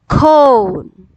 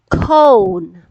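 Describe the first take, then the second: First: The vowel is a long O sound. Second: The same.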